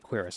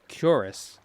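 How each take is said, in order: First: It is said like 'quiris'. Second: It is said like 'curis'. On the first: The speaker calls it wrong. "I used to say Quiris all the time, but that's not how you say it" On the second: The speaker calls it right. "It's Curis"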